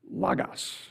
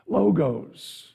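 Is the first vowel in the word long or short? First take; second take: short; long. First: The first vowel is a short O. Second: The first vowel is a long O.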